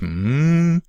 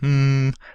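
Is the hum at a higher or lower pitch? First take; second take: higher; lower. First: The hum is at a raised, higher pitch. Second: The hum is at a normal, lower pitch. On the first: "and then raise their pitch" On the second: "you would have them say hum"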